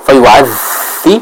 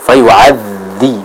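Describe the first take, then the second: First: "fayu'adzi," with air on the dzal; "fayu'adzi," dzal with breath; wrong breathy dzal. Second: "fayu'adzi," with a strong dzal, no air; "fayu'adzi," dzal firm; correct firm dzal. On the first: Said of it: "Jadi bukan". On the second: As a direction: hold back the breath on dzal in "fayu'adzi,". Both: Shown as a demonstration.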